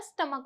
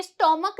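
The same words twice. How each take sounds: First: स्टमक with a light schwa, no o; correct pronunciation. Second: स्टमक with a heavy o, stomuck; wrong pronunciation. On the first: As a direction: say स्टमक softly with a short a sound. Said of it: "स्टमक होता है". (सही उच्चारण स्टमक, ओ के बिना) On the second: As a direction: lean hard on the o in स्टमक. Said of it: "ओ की sound पे बहुत ज्यादा जोर देते हैं". (स्टमक में ओ पर ज़्यादा ज़ोर, गलत उच्चारण) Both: Shown as a demonstration.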